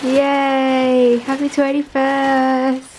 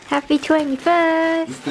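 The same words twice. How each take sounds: First: Very slow, loud sing-song cheer; drawn-out cheer. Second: Loud, bright birthday cheer; excited cheer. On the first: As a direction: stretch every syllable out. Repeated birthday cheer, drawn out. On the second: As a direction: cheer it out, slowly. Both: Real, not acted.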